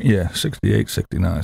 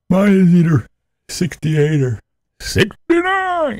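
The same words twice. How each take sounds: First: Said in the usual way. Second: High, slow sing-song; high silly voice. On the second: Acted. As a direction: say it in a high squeaky voice. High playful voice on thermostat.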